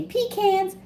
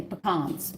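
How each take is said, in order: First: Pecans said "pee-CANS", long ee, flat a; pecans as pee-cans, pitched up high; northern pecans. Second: Pecans with open ah, puh-kahns; southern pecans. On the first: Northerner saying pecans to viewers: pee-CANS. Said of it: "If you're north, from North America, they say". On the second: Southern cook telling viewers how she says it: puh-KAHNS. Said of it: "In the South, we say". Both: Shown as a demonstration.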